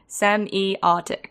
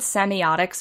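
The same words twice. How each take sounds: First: The word is said slowly. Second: The word is said at normal speed.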